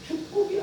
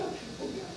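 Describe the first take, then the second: First: 축복이야 lilted much higher with a rise; mock-sweet high 축복이야 rising at the end; sweet false blessing. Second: 축복이야 breathed as a soft whisper; mock-sweet whispered 축복이야; whispered false blessing. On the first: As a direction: sing out 축복이야 high and sugary. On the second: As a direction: whisper 축복이야 like a honeyed secret. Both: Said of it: "이렇게만 말한다는 것입니다".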